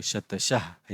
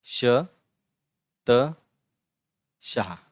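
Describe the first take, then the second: First: Said in the usual way. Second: "श", "त", "शाह" each alone, long pauses between; slow syllable breakdown. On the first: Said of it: "ऐसे पढ़ेंगे". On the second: Shown as a demonstration. Teacher repeating the example for pupils, syllable by syllable.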